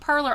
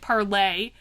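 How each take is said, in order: First: The name ends with an 'er' sound. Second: The name ends with an 'ay' sound. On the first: This is the speaker's own way of saying it. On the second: This may be the correct way to say it.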